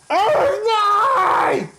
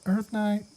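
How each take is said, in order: First: It is said loudly with energy. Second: It is said quietly and timidly.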